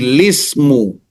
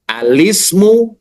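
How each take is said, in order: First: The word starts directly with 'l' and an 'i'. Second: The word starts with an 'a' vowel before lam. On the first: "membuang huruf hamzah, ya, dan memulai huruf lam kasroh" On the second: "pertama membaca fathah hamzah dan membaca kasroh lam"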